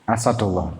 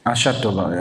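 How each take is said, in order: First: The middle consonant is a plain s sound. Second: The middle consonant is an sh sound. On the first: The speaker calls it right. "alif sin, sin dal" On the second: The speaker calls it wrong. "dibacanya itu asyad, ya jadinya alif shin"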